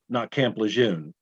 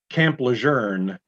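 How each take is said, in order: First: Lejeune is said without an R sound. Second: Lejeune is said with an R sound. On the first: The speaker calls it wrong. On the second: The speaker calls it right. "the correct way"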